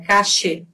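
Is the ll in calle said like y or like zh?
zh sound. The ll is said like a zh sound. "na Argentina, cachê... Como se fosse um J"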